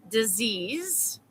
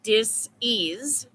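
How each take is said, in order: First: Said in the usual way. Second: "dis-ease" said as two parts, dis then ease; split dis-ease. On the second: Shown as a demonstration. Explaining the word to viewers, "dis-ease" in two parts. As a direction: pull "dis-ease" apart, dis and ease. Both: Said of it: "That's why they call it dis-ease".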